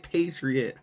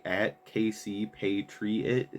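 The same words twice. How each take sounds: First: Said in the usual way. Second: Slow "Patriot" split as pay-tree-it; puzzled sounding-out. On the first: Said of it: "Oh, I get it". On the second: Real, not acted. Host puzzling out a follower's handle, slow sounding-out. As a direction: read "K C Patriot" slowly, piece by piece. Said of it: "I think that's a".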